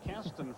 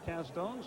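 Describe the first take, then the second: First: The last syllable has a short, reduced vowel. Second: The last syllable has a full long 'o' vowel. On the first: This is how the name was said for years. "last name pronounced as Caston for a few years" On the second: This is how the relatives say the name. "Found out they pronounced it Castone"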